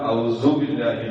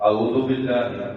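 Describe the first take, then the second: First: A z sound replaces the dh sound. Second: The ain sound is dropped from the first word. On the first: "ഔസു ബില്ലാഹി പറ്റൂല" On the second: "ഔദു ബില്ലാഹി പറ്റൂല"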